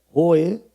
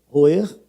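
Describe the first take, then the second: No difference in how they are said.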